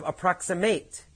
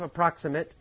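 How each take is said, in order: First: The last vowel is a full long A. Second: The last vowel is short and reduced. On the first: It is used as a verb meaning to get close to. "it becomes a long A sound" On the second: It is used as an adjective meaning not exact.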